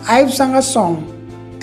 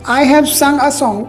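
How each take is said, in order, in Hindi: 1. सहायक क्रिया छोटी होकर "I" के साथ जुड़ जाती है। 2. सहायक क्रिया "have" पूरे शब्द की तरह बोली जाती है।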